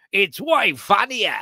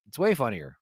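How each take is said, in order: First: Higher, drawn-out broad Australian; exaggerated Aussie accent. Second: Said in the usual way. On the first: Shown as a demonstration. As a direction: ham up the Australian vowels. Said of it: "when I do it like this". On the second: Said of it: "a little more toned down".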